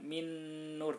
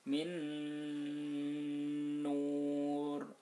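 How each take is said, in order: First: The nasal sound is short, not held. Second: The nasal sound is held somewhat long. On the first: The speaker calls it wrong. "Jadi bukan min nur" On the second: The speaker calls it right. "tapi min nur, agak panjang"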